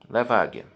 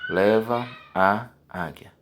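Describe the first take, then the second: First: The vowels run together into one sound. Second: The vowels are said as separate sounds.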